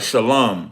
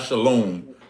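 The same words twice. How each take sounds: First: The second vowel sounds like 'ah'. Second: The second vowel sounds like 'oh'. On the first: The speaker calls it right. "with a ah, like shalom" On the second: The speaker calls it wrong. "not not shalom with a O"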